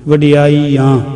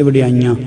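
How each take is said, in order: First: ਵਡਿਆਈਆਂ drawn out, nasal only on final aan; nasal final vowel. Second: ਵਡਿਆਈਆਂ run together, nasal put on the ਈ; common misreading. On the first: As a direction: hold a clean ee, then nasalise the ending of ਵਡਿਆਈਆਂ. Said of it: "ਐੜੇ ਨੂੰ ਬਿੰਦੀ ਜਾਣੀ ਚਾਹੀਦੀ ਹੈ". (ਵਡਿਆਈਆਂ, ਬਿੰਦੀ ਐੜੇ ਨੂੰ) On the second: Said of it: "ਨਹੀਂ ਤਾਂ ਅਸੀਂ mostly ਕਹਿ ਦਿੰਦੇ". (ਵਡਿਆਈਆਂ, ਈੜੀ ਨੂੰ ਬਿੰਦੀ ਦੇ ਕੇ) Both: Shown as a demonstration.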